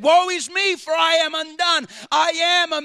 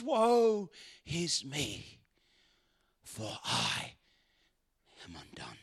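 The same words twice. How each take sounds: First: Louder, ringing woe is me; proclaimed aloud. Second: Slow, soft, fading into a whisper; broken whisper. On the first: Preacher voicing Isaiah's confession, loud proclamation. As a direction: declare it out loud to the crowd. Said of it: "He said". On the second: Preacher voicing Isaiah humbled before God, whispering. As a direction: confess it under your breath, undone. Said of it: "And he says". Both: Acted.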